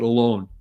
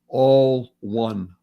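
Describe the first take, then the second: First: It is said as one word, alone. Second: It is said as two words, all one. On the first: Being by oneself. The speaker calls it wrong. "mispronounce and they call it" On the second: Everyone is part of one whole. The speaker calls it right. "it's really pronounced"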